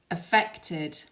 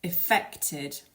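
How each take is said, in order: First: 'affected' as uh-FEK-tid, stress on the middle syllable; weak 'uh', then stress FECT in 'affected'; second-syllable stress. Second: 'Affected' as ih-FEK-tid, stress on the middle syllable; weak short 'ih', then stress FECT in 'Affected'; second-syllable stress. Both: Shown as a demonstration. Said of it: "put the stress on the second syllable".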